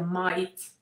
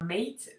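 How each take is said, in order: First: It is said in an Australian accent. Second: It is said in an American accent.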